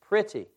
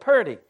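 First: It is said the standard way, like pretty. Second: It is said the Southern way, like purdy. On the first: "some of you know that word as P-R-E-T-T-Y" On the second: "That's the phonetic spelling of it, purdy"

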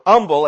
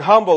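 First: It is said in a Southern pronunciation. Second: It is said in a general pronunciation.

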